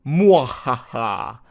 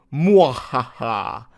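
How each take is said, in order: First: Whispered evil cackle, slow and drawn out; evil laugh. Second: Slow voiced evil cackle; evil laugh. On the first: Retold or imitated. Reading a forum boast aloud, hissed evil laugh. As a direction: breathe out a sly villain laugh. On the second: Reading a forum boast aloud, voiced evil laugh. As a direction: let a hammy villain laugh roll out. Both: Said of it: "Evil emoji".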